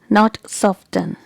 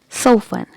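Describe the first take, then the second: First: The T sound is pronounced. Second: The T sound is silent. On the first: The speaker calls it wrong. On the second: The speaker calls it right. "Letter T is silent here"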